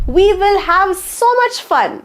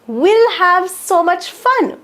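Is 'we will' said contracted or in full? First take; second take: full; contracted. First: Both words are said fully and separately. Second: The two words are joined into one short form.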